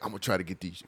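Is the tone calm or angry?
calm. It is said in a calm, plain tone.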